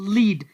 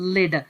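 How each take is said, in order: First: The vowel is a long 'ee' sound. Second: The vowel is a short 'e' sound. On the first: "यहाँ पर इसकी pronunciation है यानी लीड" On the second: "इसको कहा जाता है लेड"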